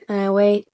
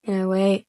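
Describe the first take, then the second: No difference in how they are said.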